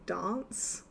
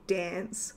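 First: It is said in a posher South Australian accent. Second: It is said in a Sydney accent. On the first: "we say dance" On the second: "Sydney they might say dance"

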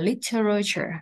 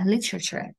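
First: All syllables are pronounced in full. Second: A syllable is dropped and it is said quickly.

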